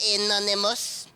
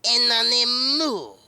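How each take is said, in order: First: It is said with a plain English accent. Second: It is said with a French accent.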